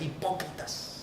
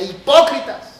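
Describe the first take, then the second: First: Said in the usual way. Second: "Hipócritas" shouted, higher and louder; strong tone. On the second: Shown as a demonstration. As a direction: hurl "Hipócritas" like a rebuke. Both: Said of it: "Y se los decía con un tono fuerte".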